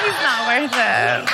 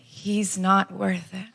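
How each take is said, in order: First: Slow, emphatic comic shout; hammed-up defiant declaration; mock indignant echo. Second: Soft, very slow reassurance; gentle, drawn-out sympathy; consoling stranger. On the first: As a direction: act out worked-up agreement. Echoing the stranger in heated agreement. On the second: Retold or imitated. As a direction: imitate a kind stranger's quiet comfort. Stranger consoling her in retold scene.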